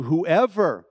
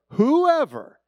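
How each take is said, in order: First: Said in the usual way. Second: Whoever thrown up high and loud; emphatic whoever. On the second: Shown as a demonstration. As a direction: hit whoever hard to drive it home. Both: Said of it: "that in and of itself should answer".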